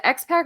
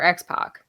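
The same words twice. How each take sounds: First: X-Pac with a short 'a' as in "pack"; pronunciation query. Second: X-Pac with an open 'ah' in the last syllable; alternative pronunciation. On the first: Host checking the wrestler's name with co-host, X-Pac said like "ex-pack". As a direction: say X-Pac so the end rhymes with "back". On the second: Host offering co-host the other option, X-Pac said like "ex-pock". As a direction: say X-Pac so the end sounds like "pock". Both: Shown as a demonstration. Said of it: "is it X-Pac or X-Pac".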